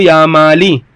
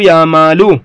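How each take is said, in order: First: "يا مالي" with the l kept in kasra, i sound; "مالي" ending in i, not in u; ya Māli. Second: "يا مالو" ending in a u; "مالو" ending in u, not in i; ya Mālu. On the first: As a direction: end "مالي" on a short i. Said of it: "وقالوا يا مالو". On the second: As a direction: end "مالو" on a u, set against the i reading. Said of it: "وقالوا يا مالي". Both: Shown as a demonstration.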